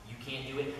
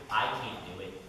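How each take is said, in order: First: "You" leaned on, the rest of "can't do it" falling away; "You" carries the weight, "can't do it" trails off; stress on you. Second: "I" leaned on, the rest of "can't do it" falling away; "I" carries the weight, "can't do it" trails off; stress on I. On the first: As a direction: point at the listener with "You". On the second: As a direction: turn the point on yourself with "I". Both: Shown as a demonstration. Contrasting you, I, pastors.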